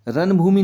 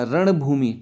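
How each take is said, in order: First: रणभूमि with plain dental n; wrong dental n. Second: रणभूमि with a curled-back ṇ; raṇ-bhoomi for रणभूमि; correct retroflex n. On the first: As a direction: say रणभूमि as ran-bhoomi, tongue forward. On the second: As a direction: curl the tongue on the ण of रणभूमि. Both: Shown as a demonstration. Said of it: "नहीं होता".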